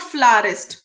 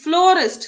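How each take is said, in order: First: The first vowel sounds like 'ah'. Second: The first vowel sounds like 'oh'. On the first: The speaker calls it wrong. "It's not फ्लारिस्ट" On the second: The speaker calls it right. "It's फ्लोरिस्ट"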